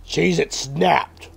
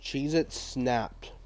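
First: Louder, slow punch on each word; emphatic product announcement. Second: Soft, slow read of the name; understated snack name. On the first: Pretend. Correcting himself on the snack name, emphatic and slow. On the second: Real, not acted. Reading a snack name to himself, softly and slowly. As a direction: say it quietly, drawn out.

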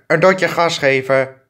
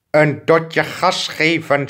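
First: Said in the usual way. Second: "Een dotje gas geven" said slowly, each word drawn out, falling at the end; slow, patient emphasis on "dotje"; slow insistent repeat. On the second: Shown as a demonstration. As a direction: spell it out patiently, like explaining to a slow learner. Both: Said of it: "zeg ik toch".

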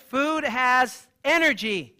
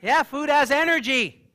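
First: "Food has energy" drawn out slowly, ENERGY falling; very slow emphasis. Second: FOOD stretched slow and loud, falling; slow emphatic. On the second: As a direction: say "food has energy" slowly, loudly, pressing FOOD. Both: Shown as a demonstration. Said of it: "Can you say".

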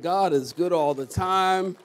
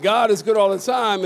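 First: Said in the usual way. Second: Louder, fuller proclamation of God is good; full-force call to the congregation; said like you mean it. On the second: Shown as a demonstration. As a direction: belt it out so the church answers. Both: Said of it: "say it like you mean it".

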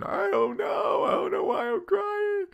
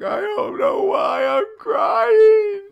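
First: High mock wail; imitated tearful cry, much higher; imitating crying. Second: High, loud, slow mock wail; imitated tearful cry, much higher and louder; imitating crying. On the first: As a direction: whimper it like a confused crying girl. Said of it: "I go". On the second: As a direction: play a patient sobbing out of nowhere. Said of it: "And they're like".

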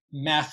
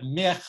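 First: MECH with an open e as in bed; Warsaw dialect form. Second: Said in the usual way. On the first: Shown as a demonstration. Teacher contrasting dialects, open-vowelled MECH. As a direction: say "mech" with e before the throaty ch. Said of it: "the Warsaw Polish dialect". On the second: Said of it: "instead of mich".

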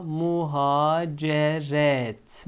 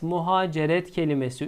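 First: Slow drawn-out "muhaceret"; careful slow "muhaceret"; slow model reading. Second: Said in the usual way. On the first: Shown as a demonstration. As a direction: stretch each syllable for the class. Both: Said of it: "son iki kelimemiz muha".

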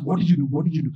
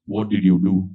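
First: Mother asking. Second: Father asking. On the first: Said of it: "She asked". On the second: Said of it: "he asks me the question". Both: Retold or imitated.

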